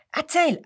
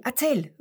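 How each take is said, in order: First: Hoch und laut, eifrig; eifrig rufen. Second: Nachgeschobenes, schwächeres erzähl; etwas leiser wiederholt. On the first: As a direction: neugierig drängen. (Seppel will unbedingt die Witze hören, laut) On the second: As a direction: die Bitte leiser nachsetzen. (Seppel wiederholt seine Bitte etwas ruhiger) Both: A narrator's reading. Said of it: "ruft der Seppel".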